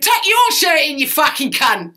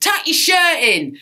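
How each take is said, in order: First: High, loud retort with YOUR punched hard; acted outraged comeback from the stage; shouted comeback. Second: Loud, high, drawn-out heckle from the crowd; mock heckle, shouted slowly; heckler's shout. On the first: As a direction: yell it back at the heckler, hitting YOUR. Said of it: "And he went". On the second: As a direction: imitate a bloke shouting at the stage. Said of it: "some bloke shouted".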